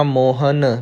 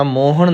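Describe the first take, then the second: First: ਮੋਹਨ ending in a dental "n"; tongue to the teeth for the n of ਮੋਹਨ; plain n ending. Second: ਮੋਹਣ ending in a curled-tongue "ṇ"; retroflex n ending. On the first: Teacher correcting learners, ਮੋਹਨ with plain dental n. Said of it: "ਨੰਨਾ ਲਾਉਣਾ ਹੈ". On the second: Teacher showing learners the mistake, ਮੋਹਣ with retroflex ṇ. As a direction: curl the tongue back on the last n of ਮੋਹਣ. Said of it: "ਮੋਹਣ ਨਹੀਂ ਪੜ੍ਹਨਾ". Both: Shown as a demonstration.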